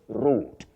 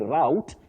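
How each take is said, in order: First: It is said with a British pronunciation. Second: It is said with an American pronunciation. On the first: "That is the British English" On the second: "you can also say route in American English"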